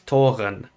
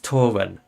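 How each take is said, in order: First: The R is pronounced like a German R. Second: The R is pronounced like an English R. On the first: "which is the like you know aspirated sort of German R" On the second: "which is an English R"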